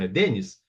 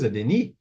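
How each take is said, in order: First: The name is pronounced the Portuguese way. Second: The name is pronounced the French way. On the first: "é português mesmo" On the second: "Eu posso alegar que é francês"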